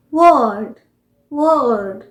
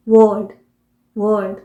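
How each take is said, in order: First: वर्ल्ड drawn out with a slight r; American pronunciation. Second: वर्ल्ड with the r left silent; British pronunciation. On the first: Teacher showing the slightly sounded r, American pronunciation. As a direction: say a long "wurrld" for वर्ल्ड, r heard. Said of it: "American pronunciation होगा". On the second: Teacher showing the silent r, British pronunciation. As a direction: say वर्ल्ड as "wuhld", no r. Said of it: "British pronunciation". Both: Shown as a demonstration.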